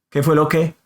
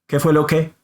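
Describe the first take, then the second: No difference in how they are said.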